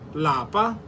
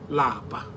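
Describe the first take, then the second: First: The word is said on a high tone. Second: The word is said on a low tone. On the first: It means home. "In higher tone, lapa means home" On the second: It means to be tired. "Lower tone, which lapa"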